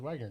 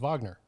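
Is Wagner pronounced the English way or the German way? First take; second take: English; German. First: The name is said the English way. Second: The name is said the German way. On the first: The speaker calls it wrong. "they think, well, no, that guy's last name is Wagner" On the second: The speaker calls it right. "No, his last name is Wagner"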